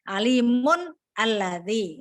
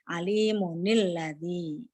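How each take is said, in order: First: The two words are said separately, without linking. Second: The words are joined with an added 'ni' syllable.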